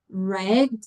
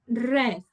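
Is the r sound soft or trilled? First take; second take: soft; trilled. First: The r sound is a soft English r. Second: The r sound is trilled like Spanish r. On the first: The speaker calls it right. "the proper sound is er, a soft er" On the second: The speaker calls it wrong. "it's not red"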